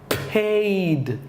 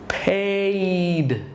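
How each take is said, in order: No difference in how they are said.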